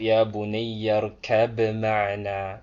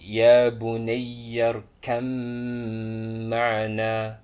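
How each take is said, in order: First: The b sound is clearly pronounced before the m. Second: The b sound is dropped and merged into the m. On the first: The speaker calls it wrong. "That is wrong" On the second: The speaker calls it right. "we don't pronounce the ba"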